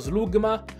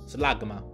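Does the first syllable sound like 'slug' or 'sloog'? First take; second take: sloog; slug. First: The first syllable has a rounded 'oo' vowel. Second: The first syllable sounds like the English word slug. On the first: The speaker calls it wrong. "Anch'io tante volte l'ho letto Slugma" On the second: The speaker calls it right. "lumaca si dice slug"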